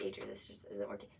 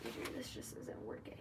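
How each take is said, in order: First: Much lower, softer mock serious breakup line; a deep, hushed parody of being serious. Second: Mock serious breakup, read like a script; half-whispered fake serious breakup; stiff scripted breakup line. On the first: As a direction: drop the voice low and play it grave. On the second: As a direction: deliver it like reading off a script. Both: Shown as a demonstration. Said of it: "I'm trying to be serious".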